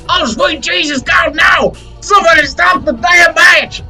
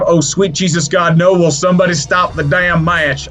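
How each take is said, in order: First: It is said imitating J R's voice. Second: It is said in his normal voice.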